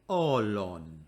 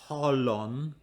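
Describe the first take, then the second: First: The word begins directly with the vowel. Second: The word begins with an h sound. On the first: The speaker calls it right. "we do not say the rough breathing" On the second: The speaker calls it wrong. "It's not holon"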